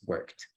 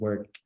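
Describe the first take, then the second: First: The ending is pronounced as a T sound. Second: The ending is not pronounced as a T sound. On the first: The speaker calls it right. "the pronunciation here is actually going to be a T" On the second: The speaker calls it wrong. "instead of pronouncing worked"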